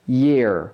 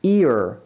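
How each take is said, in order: First: YEAR with a y onset, lower; y-glide. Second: EAR on a pure ee onset, lower; no y-glide. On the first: Teacher proving the words differ, YEAR with a y-glide. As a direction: say YEAR low, starting on a y. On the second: Teacher proving the words differ, EAR with no y-glide. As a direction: say EAR low, without any y. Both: Shown as a demonstration. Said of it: "다릅니다".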